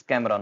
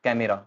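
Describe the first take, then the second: First: CAMERA in two syllables, "kam-ra"; correct pronunciation. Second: CAMERA in three syllables, "ka-me-ra"; wrong pronunciation. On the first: Teacher modelling the correct word, two-syllable camera. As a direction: drop the middle E in "camera". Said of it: "not camera". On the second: Teacher showing what not to say, middle E in camera. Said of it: "कई कैमरा बोलेंगे क्योंकि यहाँ ई". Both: Shown as a demonstration.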